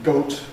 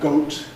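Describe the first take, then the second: Both takes have the same delivery.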